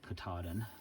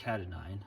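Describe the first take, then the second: First: The last syllable sounds like 'din'. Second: The last syllable sounds like 'dine'. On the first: This is the way the mountain's name is said. The speaker calls it right. "that might be how you say it" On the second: This is the speaker's own habitual way of saying it. The speaker calls it wrong. "I've been saying Catadine"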